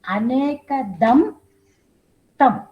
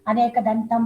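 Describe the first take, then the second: First: It is split into two words with a break. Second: It runs together as one word without a break. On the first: The speaker calls it right. "those are all two different words" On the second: The speaker calls it wrong. "many of us, we say"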